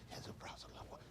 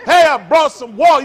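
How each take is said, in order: First: Barely audible, voiceless whisper; hushed funeral whisper. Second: Booming, high-pitched comic shout; loud instead of hushed. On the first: Acted. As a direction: whisper it as if at a wake. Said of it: "why you talk quiet". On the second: Shown as a demonstration. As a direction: holler it across the room. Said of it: "I don't know why you talk quiet".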